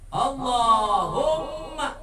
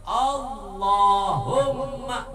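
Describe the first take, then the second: No difference in how they are said.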